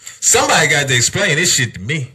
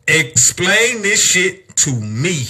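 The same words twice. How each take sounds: First: Said in the usual way. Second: Slow, every word of "Explain this shit to me" leaned on; slow emphatic repeat. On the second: Real, not acted. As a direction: drag out "Explain this shit to me" in disbelief.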